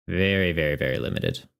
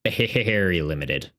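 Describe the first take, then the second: First: Very limited dropped much lower and softer; low muttered repeat. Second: Very drawn out and slow, limited stretched; stress on very. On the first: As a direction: sink the voice right down on very limited. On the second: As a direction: lean slowly on very in very limited. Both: Real, not acted. Repeating to stress limited draw.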